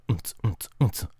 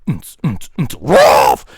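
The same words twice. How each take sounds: First: Hushed little beatbox thumps; soft, low mouth percussion; very quiet. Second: Beatbox building to a loud woof; startlingly loud dog bark ending a beat. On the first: Shown as a demonstration. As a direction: keep the beat right down low. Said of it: "it's very, it's very quiet, that part". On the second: Acted. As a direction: thump out the beat, then burst into a woof. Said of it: "Ah, no, [name]! On fait peur".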